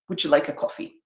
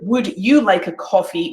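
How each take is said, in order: First: The d and y merge into a j sound. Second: The d and y sounds stay separate. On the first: "we'd say" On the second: "instead of"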